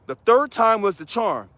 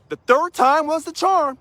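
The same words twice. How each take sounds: First: Said in the usual way. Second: Higher, slow and triumphant; high, slow victory line; emphatic high. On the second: Shown as a demonstration. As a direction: savor the win, pitched up. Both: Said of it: "repeated line".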